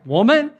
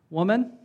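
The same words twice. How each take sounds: First: The word is said in a sharp, indignant tone. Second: The word is said in a calm, respectful tone. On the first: It is a rude way to address someone. The speaker calls it wrong. "To us, it'd be like" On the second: It is a polite way to address someone. The speaker calls it right. "which apparently was respectful"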